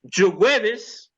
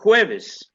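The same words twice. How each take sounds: First: It begins with a soft 'zh' or 'j' sound. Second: It begins with a harsh throaty 'h' sound.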